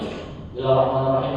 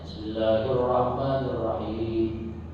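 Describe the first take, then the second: First: It is recited quickly and hurried. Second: It is recited slowly and drawn out.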